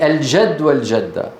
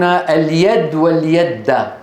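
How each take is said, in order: First: The words use a j sound. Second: The words use a y sound. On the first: "يعني" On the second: "من العرب من يبدل الجيم ياء"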